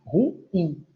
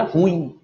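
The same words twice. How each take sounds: First: "ruim" in two syllables, ru-IM; "ruim" as ru-IM, rising onto the second syllable; stress on last syllable. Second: "ruim" as one syllable, RUIM, stressed on the u; "ruim" said the popular way, RÚ-im; common mispronunciation. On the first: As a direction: split "ruim" and stress the final IM. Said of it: "A última sílaba é a tônica". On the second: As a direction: run "ruim" together with the weight on RU. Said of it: "costume de pronúncia errada por parte de muitos". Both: Shown as a demonstration.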